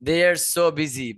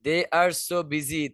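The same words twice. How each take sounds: First: "They are so busy" said slowly, so stressed; slow repeat. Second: "They are so busy" said very slowly, are stressed; slow repeat. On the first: Teacher repeating recording line for students: slow. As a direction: spell out the phrase slowly. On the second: Teacher repeating again for students: very slow. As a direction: drag out each word. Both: Shown as a demonstration. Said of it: "repeats the recording slowly".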